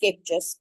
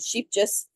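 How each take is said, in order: First: The name is said with Dutch pronunciation. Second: The name is said with English-style pronunciation. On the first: This is how the brand's home language says it. "it's pronounced Skeepjes" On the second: This is how a non-Dutch speaker says it. "I'm not Dutch, so I pronounce it Sheepjes"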